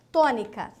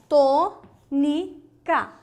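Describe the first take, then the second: First: Said in the usual way. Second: Tônica stretched slowly and louder; syllable by syllable. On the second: Shown as a demonstration. (Tônica dita devagar, sílaba por sílaba)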